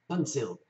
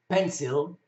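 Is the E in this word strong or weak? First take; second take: weak; strong. First: The E is said weak and reduced. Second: The E is said strong and full. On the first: The speaker calls it wrong. "rather than" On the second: The speaker calls it right. "E is strong and would have a, a stress over the E"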